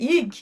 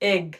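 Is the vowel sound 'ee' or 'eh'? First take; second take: ee; eh. First: The vowel sounds like 'ee'. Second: The vowel sounds like 'eh'. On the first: The speaker calls it wrong. "এটার উচ্চারণ ইগ না" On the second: The speaker calls it right. "এটার উচ্চারণ হবে এগ"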